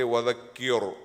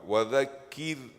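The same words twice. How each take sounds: First: The r sound is heavy and thick. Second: The r sound is light and thin. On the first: The speaker calls it wrong. "So don't say وذكر" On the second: The speaker calls it right. "The ra should be thin"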